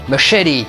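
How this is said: The word is said with an American pronunciation. "quand on le prononce à l'américaine"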